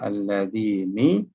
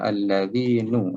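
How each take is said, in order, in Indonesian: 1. Kata itu diakhiri dengan vokal i. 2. Kata itu diakhiri dengan vokal u. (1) "Kita tak baca alladzini" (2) "kita tak baca alladzinu"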